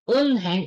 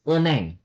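First: An h sound is heard between the syllables. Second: No h sound is heard between the syllables. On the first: Each syllable is said separately. "pag gusto mong isa-isahin yung syllable, unheng, okay lang" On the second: The word is said at normal fast speed. "pag ipropronounce mo siya ng mabilis, it's uneng. Mawawala yung sound ng H"

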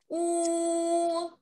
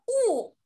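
First: The pitch stays high and level. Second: The pitch falls sharply from high. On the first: "读一声的时候要高高的、平平的来读" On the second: "四声"

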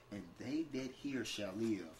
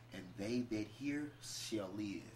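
The two takes are said the same way.

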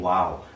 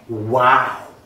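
First: It is said flat, without exaggeration. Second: It is said dramatically, with exaggeration.

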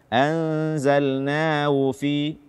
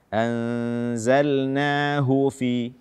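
First: The h sound is faint and barely heard. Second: The h sound is clearly breathed out. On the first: The speaker calls it wrong. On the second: The speaker calls it right.

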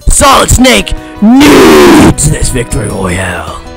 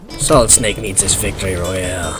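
First: It is said with strong passion and energy. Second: It is said flatly, without much passion.

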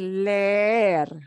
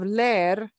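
First: The E vowel is drawn out long. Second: The E vowel is said short. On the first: The speaker calls it right. "we're going to just drag the E sound out longer" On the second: The speaker calls it wrong. "instead of"

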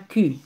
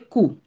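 First: The letter is said with a French 'u' vowel. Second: The letter is said with an 'oo' vowel. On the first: The speaker calls it wrong. "Il n'est pas Q" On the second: The speaker calls it right. "en allemand, on dit cou"

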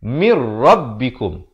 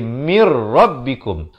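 The two takes are said the same way.

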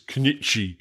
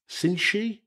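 First: The name is said as Cnchi. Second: The name is said as Cinchi. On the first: The speaker calls it wrong. "I would have pronounced this Cnchi" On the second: The speaker calls it right. "it's pronounced something like Cinchi"

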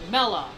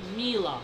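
First: The first vowel sounds like 'eh'. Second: The first vowel sounds like 'ee'. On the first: The speaker calls it right. "Her name is pronounced as Mella" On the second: The speaker calls it wrong. "not Mila"

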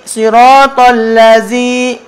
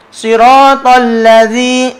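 No difference in how they are said.

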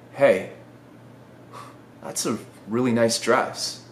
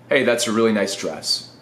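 First: It is said with loving, awed warmth. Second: It is said flatly, without feeling.

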